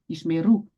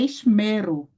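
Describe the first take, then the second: First: The stress is on the final syllable. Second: The stress is on the middle syllable. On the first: The speaker calls it right. "você não pode pronunciar a tônica no mem e sim no ru" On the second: The speaker calls it wrong. "Não é esmero"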